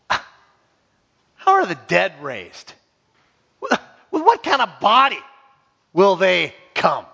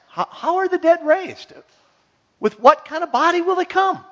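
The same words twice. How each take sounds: First: It is asked in a scornful, mocking tone. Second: It is asked in a sincere, curious tone. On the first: It is an objection meant to deny the idea. The speaker calls it right. "Or I could read it like this" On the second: It is a genuine request for information. The speaker calls it wrong. "If I read it like this"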